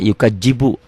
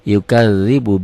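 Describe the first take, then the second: First: The middle consonant is a j sound. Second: The middle consonant is a th sound, as in 'this'. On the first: The speaker calls it wrong. "Banyak kok yang baca yukajibu" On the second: The speaker calls it right. "bukan yukadzibu"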